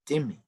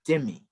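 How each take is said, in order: First: The word begins with a D sound. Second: The same.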